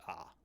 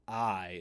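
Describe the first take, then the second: First: The vowel sounds like 'ah'. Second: The vowel sounds like 'eye'. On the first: The speaker calls it right. "it's just ah" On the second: The speaker calls it wrong. "So alpha iota isn't I"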